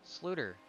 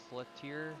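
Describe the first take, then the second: First: "Sluter" said as SLOO-ter, two syllables; "Sluter" with the stress up front; corrected name pronunciation. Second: "Slutier" tried slowly, ending in tee-EER; hesitant guess at "Slutier"; unsure name pronunciation. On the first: Shown as a demonstration. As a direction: state "Sluter" firmly, higher start and falling end. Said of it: "ninety-four is pronounced Sluter". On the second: Real, not acted. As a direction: feel out "Slutier" with an extra syllable, unsure. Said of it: "Not sure what his name is".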